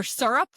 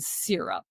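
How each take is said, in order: First: "syrup" said SUR-up, rising; other regional syrup. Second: "syrup" said SEER-up; one regional syrup. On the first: Showing the other accent's version, syrup as SUR-up. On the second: Showing how accents differ, syrup as SEER-up. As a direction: say "syrup" with an ee sound. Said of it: "that's why they say". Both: Retold or imitated.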